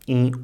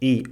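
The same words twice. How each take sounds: First: The vowel is said with strong nasalization. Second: The vowel is said without nasalization.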